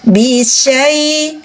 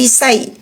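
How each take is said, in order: First: The consonant after bi is sh. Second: The consonant after bi is s. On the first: The speaker calls it right. "syai huruf sin ya" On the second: The speaker calls it wrong. "bukan bisai"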